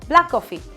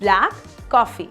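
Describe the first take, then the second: First: The shared k sound links the words. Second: The two words are said separately. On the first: The speaker calls it right. "common sound ... साथ में बोलते हैं" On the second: The speaker calls it wrong. "do not say this as two individual words"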